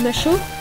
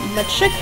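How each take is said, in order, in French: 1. Le nom se termine par un son 'o'. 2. Le nom se termine par un son 'up'. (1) "Je connais des personnes qui disent macho" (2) "Match-up, ça dépend comment vous prononcez"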